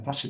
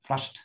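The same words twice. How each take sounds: First: The ending is said as an extra syllable. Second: The ending is a plain t sound. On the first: The speaker calls it wrong. "Chỗ này không đọc là flushed" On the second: The speaker calls it right. "nó không thành id, mà nó ở đây nó là flushed"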